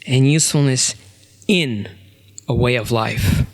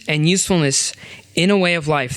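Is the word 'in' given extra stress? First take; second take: yes; no. First: The word 'in' is given strong stress. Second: The word 'in' gets no special stress. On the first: "tell you what the key word in this sentence is for me" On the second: "I'm going to read this sentence twice"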